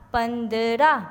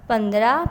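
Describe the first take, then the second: First: پندرہ in slow syllables, pan-da-ra, rising; teacher stretching پندرہ for the class; drawn-out pronunciation. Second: Said in the usual way. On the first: Shown as a demonstration. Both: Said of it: "آپ کو اس کے بولنے سے".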